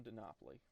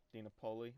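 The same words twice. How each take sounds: First: "Dinopoli" as dih-NAH-plee; chosen pronunciation. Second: "Dinopoli" as dee-nuh-POH-lee; alternative pronunciation. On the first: Gamer deciding what to call his player, "Dinopoli" as dih-NAH-plee. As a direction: settle on "Dinopoli" with stressed NAH. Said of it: "I'm gonna call him". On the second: Gamer unsure of a player's name, trying "Dinopoli" as dee-nuh-POH-lee. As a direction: try "Dinopoli" with a long O in POH. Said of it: "however you wanna say it". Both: Real, not acted.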